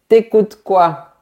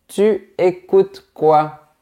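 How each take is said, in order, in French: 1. La voyelle de 'tu' est supprimée. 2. La voyelle de 'tu' est entièrement prononcée. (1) "la lettre U de tu disparaît" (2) "Au lieu de"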